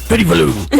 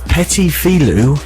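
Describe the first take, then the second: First: It is said in a gruff, tough put-on voice. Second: It is said in the speaker's ordinary voice. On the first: "when you say it in a Mister T voice" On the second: "it's Petit Filou"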